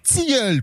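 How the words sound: The t is followed by a hissing ts sound. The speaker calls it right. "On dit tilleul"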